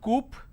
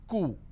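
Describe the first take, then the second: First: The word ends with a clear p sound. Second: The word ends in a vowel, no p. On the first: The speaker calls it wrong. "It's not coop" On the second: The speaker calls it right. "it's coup"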